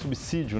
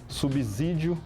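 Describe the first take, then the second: First: The s after sub is a hard s. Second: The s after sub sounds like a z. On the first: This is the correct pronunciation. The speaker calls it right. "sendo na verdade subsídio" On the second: This is how television commonly says it. The speaker calls it wrong. "a televisão usa muito"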